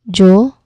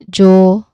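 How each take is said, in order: No difference in how they are said.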